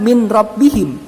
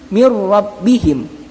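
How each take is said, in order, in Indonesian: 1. n dibunyikan terpisah sebelum r. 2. n melebur penuh ke dalam r yang ditekan. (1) "bukan min rabbihim" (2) "tapi mir rabbihim, tanpa dengung, tanpa pantulan"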